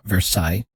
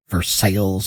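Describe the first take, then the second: First: It uses the original French-style pronunciation. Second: It uses the changed, Americanized pronunciation. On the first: It names the European place. "not Versailles" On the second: It names the town in Ohio. "we changed the pronunciation"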